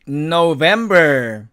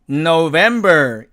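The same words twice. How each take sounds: Both takes have the same delivery.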